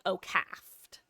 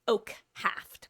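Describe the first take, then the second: First: It is run together without the h sound. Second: It is said as two parts, oak and haft. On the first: The speaker calls it wrong. "I thought people were saying" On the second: The speaker calls it right. "by the way"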